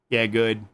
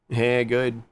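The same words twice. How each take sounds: The two takes are said the same way.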